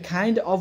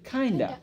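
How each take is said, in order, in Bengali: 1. দুটো শব্দই পূর্ণভাবে আলাদা করে বলা হয়। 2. শব্দ দুটো মিশে একটি হয়ে যায়, শেষে হালকা উচ্চারণ থাকে। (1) "কাইন্ড অফ হয়ে গেল কি"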